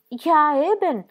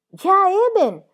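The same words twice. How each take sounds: First: Higher, louder eager echo; eager agreement. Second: Much higher, louder shrill repeat; higher-pitched. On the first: Midwife echoing the husband with eager agreement. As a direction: chime in warmly to agree. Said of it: "gli fece eco Frau Dosch con partecipazione". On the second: Midwife repeating her agreement in a higher tone. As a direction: squeak it out even higher. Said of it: "ripeté Frau Dosch in tono più acuto". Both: A narrator's reading.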